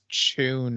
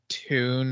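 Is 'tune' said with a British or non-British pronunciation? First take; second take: British; non-British. First: The word is said with a British pronunciation. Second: The word is said with a non-British pronunciation.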